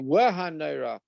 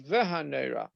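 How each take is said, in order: First: The word begins with a W sound. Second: The word begins with a V sound. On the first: This is the eastern pronunciation tradition. "some people would say Wahanera. That's uh, from the uh, eastern countries" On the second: This is the European pronunciation tradition. "in Europe you say Vahanera"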